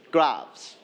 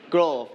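First: "gloves" with open vowel and final s; correct gloves. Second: "glove" with a rounded o, no final s; mispronounced glove. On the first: Teacher corrects the class's word, clearly pronounced gloves. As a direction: sound out "gloves", ending in a clear s. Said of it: "It's gloves". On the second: Teacher mimics the class's mistake, mispronounced glove. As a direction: say "glove" wrongly, like "grove". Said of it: "It's not glove". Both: Shown as a demonstration.

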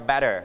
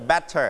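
First: "better" with an American flapped T; American pronunciation. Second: "better" with a crisp British T; British pronunciation. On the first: Teacher showing the class the American version, American "better" with D-like T. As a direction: say "better" American-style, T softened to a quick D. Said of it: "ถ้าอเมริกันก็". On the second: Teacher demonstrating British pronunciation to class, British "better" with clear T. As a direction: say "better" the British way, T fully sounded. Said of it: "ถ้าเป็นอังกฤษจะ". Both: Shown as a demonstration.

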